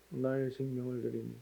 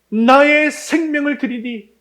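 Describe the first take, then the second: First: It is said in a weak, limp voice. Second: It is said in a loud, strong voice. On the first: The praise is given half-heartedly. The speaker calls it wrong. "이거를 어떻게 나의 생명을 드리니 뭐 이렇게 할 수 있겠습니까?" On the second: The praise is given wholeheartedly. The speaker calls it right. "이렇게 해야 되지 않겠습니까?"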